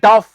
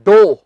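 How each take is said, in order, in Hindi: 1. शब्द का अंत छोटे स्वर और f से होता है। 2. शब्द का अंत लंबे o स्वर से होता है। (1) "बहुत से लोग इसे बोल देते हैं डफ" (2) "इसका सही उच्चारण है डो"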